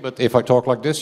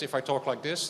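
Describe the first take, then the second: First: The voice sounds close and clearly louder. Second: The voice sounds distant and quieter. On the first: The speaker calls it right. "you can actually hear me" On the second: The speaker calls it wrong. "then it's okay"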